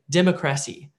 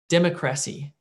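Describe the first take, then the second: First: The stress falls on an unexpected syllable. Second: The same.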